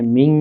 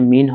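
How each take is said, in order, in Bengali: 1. শেষের ন টি হালকা নাসিকাধ্বনির ভেতরে চাপা পড়ে আছে। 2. শেষের ন টি একটি স্পষ্ট, সাধারণ ন। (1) "এখানে মিং হবে। এখানে হালকা করে একটা গুণনা করে পড়তে হবে" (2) "এখানে মিন হবে না"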